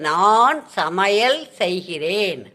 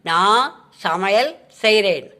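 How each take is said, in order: First: The verb is said in its full form. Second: The verb is said in a shortened form. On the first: This is the written form of the sentence. "அது எழுத்து வழக்கு" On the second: This is how it is said in everyday speech. "இது பேச்சு வழக்கு"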